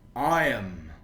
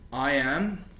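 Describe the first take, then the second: First: The words are joined into one syllable. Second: Both words are said in full.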